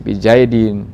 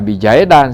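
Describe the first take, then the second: First: The word ends with an i vowel sound. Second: The word ends with an a vowel sound. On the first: The speaker calls it right. "Jadi dibaca ini bizaidin" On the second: The speaker calls it wrong. "Jangan dibaca bijaidan, salah"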